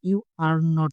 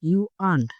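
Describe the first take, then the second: First: Every word is said in full. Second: The words are squeezed into one contracted form.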